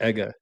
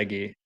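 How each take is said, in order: First: The name ends in an 'ah' sound. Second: The name ends in an 'ee' sound. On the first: This is how the person himself says it. "I think he pronounced it Ega" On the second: This is how the speaker habitually says it. "but I pronounce it Eggy"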